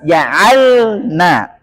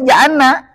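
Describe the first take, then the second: First: The l is held clearly without bounce. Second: The l is merged into the following n. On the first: The speaker calls it right. "harus sukunnya jelas" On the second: The speaker calls it wrong. "Jangan sampai diidghamkan ... Huruf lam ke huruf nun"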